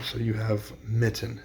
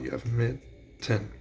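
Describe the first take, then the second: First: Said in the usual way. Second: Mitten drawn out slowly, syllable by syllable; slow syllable count. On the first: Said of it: "let's start with an example". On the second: Shown as a demonstration. Teacher to students, mitten spoken slowly by syllables. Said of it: "count 'em out".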